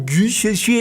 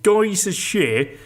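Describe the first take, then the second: First: The name is said with a French accent. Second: The name is said with an English accent.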